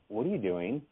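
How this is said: It is said in a suspicious, puzzled way.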